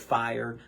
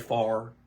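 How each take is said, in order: First: The vowel is a full 'ire' sound. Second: The vowel is flattened, like Eastern Kentucky 'far'.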